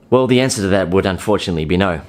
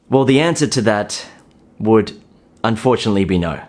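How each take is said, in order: First: It is said quickly without pauses. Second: It is said slowly with clear pauses. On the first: The speaker fears losing the listener's interest. The speaker calls it wrong. "a guy who says it fast" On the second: The speaker is confident and unhurried. The speaker calls it right. "the pauses add effect"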